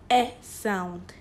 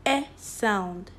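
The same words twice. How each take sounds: The two takes are said the same way.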